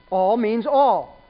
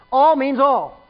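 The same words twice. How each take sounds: First: "All means all" spoken slowly, each word weighed; slow it right down on "All means all"; slow emphasis. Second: Said in the usual way. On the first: Shown as a demonstration. Preacher driving home that all means all, slow and deliberate.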